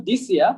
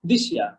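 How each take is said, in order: First: "this year" with a plain s, dis-ia; wrong pronunciation. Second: "this year" as di-SHIA, falling low; blended pronunciation. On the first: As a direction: keep the s in "this year". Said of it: "It's not this year". ("this year"-এ স ধ্বনি, দিস ইয়ার) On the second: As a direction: turn the s of "this year" into sh. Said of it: "দেখতে পাচ্ছেন". ("this year"-কে জুড়ে দিশিয়া) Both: Shown as a demonstration.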